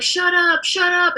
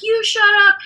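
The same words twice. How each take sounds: First: High, drawn-up mock sleep outburst; imitated sleeping dad. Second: Very high-pitched mock comeback; imitated mom retorting. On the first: Dad talking in a nightmare, high imitated outburst. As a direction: act out dad protesting in his sleep. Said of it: "so he would be like". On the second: Mom answering sleeping dad, high imitated retort. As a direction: throw it back at him, stressing the retort. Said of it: "my mom would be like".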